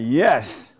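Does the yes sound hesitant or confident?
confident. It is said firmly and convincingly.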